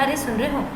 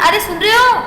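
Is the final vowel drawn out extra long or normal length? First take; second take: normal; extra long. First: The final vowel is held at ordinary length. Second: The final vowel is stretched out very long. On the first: "वहां आपका दीर्घ हुआ" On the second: "वहां हमने सुन रहे हो ओ ज्यादा मात्राओं का प्रयोग किया"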